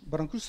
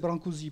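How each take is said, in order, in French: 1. Le nom se prononce avec des sons roumains. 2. Le nom se prononce avec des sons français.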